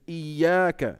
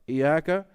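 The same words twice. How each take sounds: First: The middle consonant is held long and doubled. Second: The middle consonant is short, not doubled. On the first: It means you alone. The speaker calls it right. "it's shadda, tajdeed" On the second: It refers to the sun. The speaker calls it wrong. "is another word for sun"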